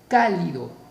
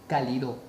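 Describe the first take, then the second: First: The stress is on the first syllable. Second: The stress is on the last syllable. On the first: "mayor fuerza de voz en K" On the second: "si la mayor fuerza de voz estuviese en Do"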